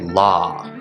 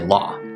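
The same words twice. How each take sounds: First: The vowel is held out longer. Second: The vowel is short and clipped. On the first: "holding it out a little bit longer" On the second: "I wouldn't just say law"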